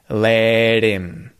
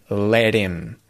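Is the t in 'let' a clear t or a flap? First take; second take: flap; flap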